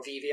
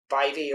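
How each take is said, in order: First: "Vive" with an "ee" vowel; alternative pronunciation. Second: "Vive" with a long "eye" vowel; first pronunciation option. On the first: Reviewer offering another reading, "Vive" with an "ee" sound. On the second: Reviewer unsure of the model name, "Vive" with an "eye" sound. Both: Shown as a demonstration. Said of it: "not sure how you pronounce it".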